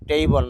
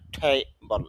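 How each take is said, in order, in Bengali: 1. প্রথম t সাধারণ ও অল্পপ্রাণ। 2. প্রথম t জোরালভাবে মহাপ্রাণ। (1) "টেবল না এরকম হবে না" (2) "ঠেবল এরকম ছ ঠ এরকম সাউন্ড হবে"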